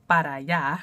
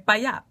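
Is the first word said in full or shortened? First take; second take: full; shortened. First: The first word is said in full, two syllables. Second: The first word is cut to one syllable. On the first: This is the standard form as taught. "I learned it para allá" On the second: This is the casual form used by Caribbean speakers. "but they say pa allá"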